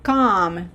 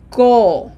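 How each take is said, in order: First: "com" said with an open ah, like "calm"; wrong open vowel. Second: "co" with a long, rounded closed oh. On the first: Teacher warning learners about the O, open English vowel in "com". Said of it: "remember this is not com". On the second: Teacher modelling the correct vowel, long closed O in "co". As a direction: hold a pure round O on "co". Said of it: "Closed O". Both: Shown as a demonstration.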